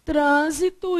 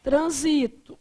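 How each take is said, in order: First: "trânsito" stressed on TRÂN; stress on first syllable. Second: "Transito" stressed on SI; stress on second syllable. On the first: (tônica em TRÂN: "trânsito") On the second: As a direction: say "Transito" as tran-SI-to. (tônica em SI: "Transito") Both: Shown as a demonstration. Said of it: "dependendo da pronúncia da palavra".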